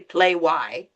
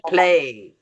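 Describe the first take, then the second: First: The word ends with an added 'why' sound. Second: The word ends with a plain 'ay' sound. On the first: The speaker calls it wrong. "we don't say play why" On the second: The speaker calls it right. "We say play"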